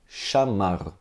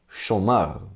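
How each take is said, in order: First: The first vowel sounds like 'a'. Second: The first vowel sounds like 'o'. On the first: "os judeus do sul de Israel leram chamar" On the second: "os judeus de Tiberíades leram essa palavra assim"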